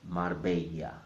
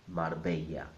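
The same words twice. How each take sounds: Both takes have the same delivery.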